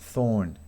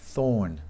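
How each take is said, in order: No difference in how they are said.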